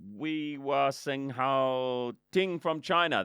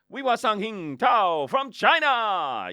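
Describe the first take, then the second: First: The name is said hesitantly and unsurely. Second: The name is said confidently and happily. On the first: The speaker seems unsure of the name. The speaker calls it wrong. "they think you're stuffed up" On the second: The speaker seems sure of the name. The speaker calls it right. "just make it sound like you're so happy to be there"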